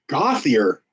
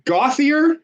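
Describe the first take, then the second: First: Gauthier. said low with a falling tune; settled name. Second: Gauthier? asked on a high questioning rise; unsure try at the name. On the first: Caller repeats the surname back, falling and sure. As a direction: land Gauthier. flat and final. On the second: Caller checks the old man's surname, rising and unsure. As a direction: test Gauthier? with a rising tune. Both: Real, not acted. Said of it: "How do I pronounce that?".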